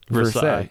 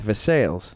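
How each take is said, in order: First: It is said the usual French way. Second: It is said the local Pittsburgh way. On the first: This is how the rest of the world says it. "Everywhere else in the world, it's pronounced Versailles" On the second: This is how locals say the town's name. "Here in Pittsburgh, it is North Versailles"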